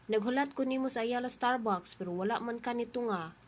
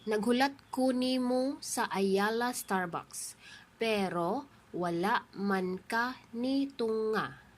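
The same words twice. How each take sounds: First: The sentence is spoken at normal speed. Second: The sentence is spoken slowly.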